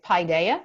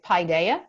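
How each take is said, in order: First: It is said the American way. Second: It is said the American way.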